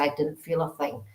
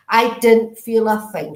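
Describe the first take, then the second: First: Said in the usual way. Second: "didn't" stressed, louder and slow; emphatic repeat. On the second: Retold or imitated. Medium repeating the spirit's reassurance to the sitter, emphatic and slow. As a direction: lean hard on "didn't", slow and loud.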